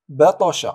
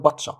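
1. يُخرج صوت t مع قلقلة. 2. يُحبس صوت t بلا قلقلة. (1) "نقلقله" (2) "لا نقول بطش"

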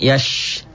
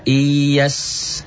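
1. Suku kata itu berakhir dengan bunyi sh. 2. Suku kata itu berakhir dengan bunyi s biasa. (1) "tapi bukan yash" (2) "Wa iyas"

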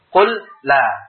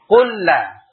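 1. Ada henti singkat antara qul dan la. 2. Kedua bunyi l menyatu menjadi satu bunyi ganda. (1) "Seakan-akan berhenti untuk membacanya jelas, harus berhenti" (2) "harus dimasukkan ke huruf sebelumnya"

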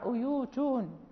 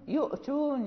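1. تحل واو المد الطويلة محل الهمزة. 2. تُسمع همزة قبل التاء.

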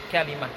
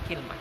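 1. Ada 'a' setelah k dan 'i' setelah l. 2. Ada 'i' setelah k dan tidak ada vokal setelah l. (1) "Kalimah dengan fathah kafnya, wa kasril lam dan mengkasrah lamnya" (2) "dengan mengkasrah kafnya dan mensukun lamnya"

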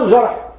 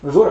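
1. الحركة الأولى هي a، مثل jarh. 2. الحركة الأولى هي u، مثل jurh. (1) "أما الجرح هو الفعل" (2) "الجرح هو الشيء الذي يكون في الجسم"

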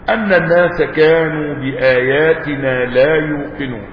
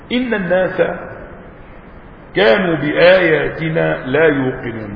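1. تبدأ الكلمة الأولى بصوت 'a'. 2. تبدأ الكلمة الأولى بصوت 'i'. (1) "وبفتحها" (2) "بكسر إن، بكسر الهمزة"

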